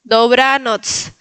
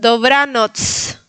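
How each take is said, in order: Both takes have the same delivery.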